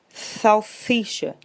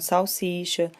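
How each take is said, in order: First: The s sounds are lisped with the tongue forward. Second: The s sounds are clear, normal hissing sounds. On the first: The child cannot pronounce the s sound. The speaker calls it wrong. "salsicha e não" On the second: This is the intended pronunciation. The speaker calls it right. "e não salsicha"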